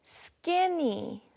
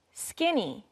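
First: Slow, stretched-out "skinny"; higher, slowly modeled "skinny"; pronunciation model. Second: Said in the usual way. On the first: Shown as a demonstration. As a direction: draw out "skinny" for learners to copy. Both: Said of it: "Let's practice our pronunciation".

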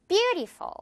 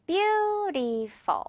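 First: BEAUTIFUL with a high, strong first syllable; stress on BEAU. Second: BEAUTIFUL stretched very slowly into three beats; three drawn-out syllables. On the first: Teacher modelling the word for learners, BEAUTIFUL stressed on the first syllable. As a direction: hit BEAU, let "-tiful" fall away quickly. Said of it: "뷰 부분이 가장 큰 강세를". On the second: Teacher showing learners the three syllables, BEAUTIFUL slowly drawn out. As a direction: draw out each syllable of "beautiful", high first. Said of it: "이렇게 세 번 발음이 나지만". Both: Shown as a demonstration.

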